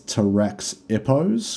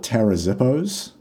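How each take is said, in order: First: The middle consonant is said as a ks sound. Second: The middle consonant is said as a z sound. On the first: "otherwise it's" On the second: "pronounce the X like a Z"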